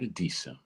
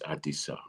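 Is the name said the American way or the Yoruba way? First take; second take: American; Yoruba. First: The name is said with an Americanized pronunciation. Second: The name is said with its Yoruba pronunciation. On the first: The speaker calls it wrong. "Americans pronounce it Adisa. It's not Adisa" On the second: The speaker calls it right. "it's Adisa"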